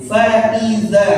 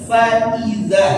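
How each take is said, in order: No difference in how they are said.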